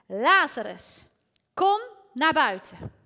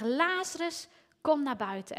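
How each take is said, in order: First: Loud call. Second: Lazarus raised high, but only a little louder; a lighter retelling of the call; mild calling out. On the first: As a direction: call the dead man out of the tomb at full voice. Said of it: "riep hij met een luide stem". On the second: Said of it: "Dus hij moest schreeuwen". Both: Retold or imitated.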